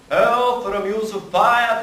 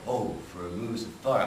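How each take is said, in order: First: A modern accent in a higher, airy voice. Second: An older accent in a lower, earthy voice. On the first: "I'm sort of dead from the neck down" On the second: "With the original pronunciation accent, notice that my voice dropped"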